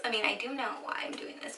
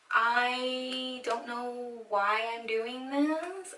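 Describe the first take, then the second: First: Said in the usual way. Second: Slow, drawn-out lament; dreading whine. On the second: Real, not acted. Dreading her own home haircut, a long slow whine. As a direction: draw the words out in rising dismay.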